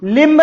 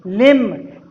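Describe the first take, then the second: First: "लिम्ब" with the b sounded, limb; "लिम्ब" ending on a clear b; "लिम्ब" said wrongly with b; wrong pronunciation. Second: "लिम्ब" said as lim, silent b; "लिम्ब" with no b sound at the end; "लिम्ब" as lim, b left silent; correct pronunciation. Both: Shown as a demonstration. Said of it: "लिम्ब नहीं बच्चों".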